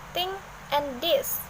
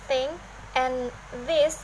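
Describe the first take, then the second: First: The th sound is pronounced as t or d. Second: The th sound is pronounced as th. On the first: "may be pronounced as" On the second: "words like thing and this"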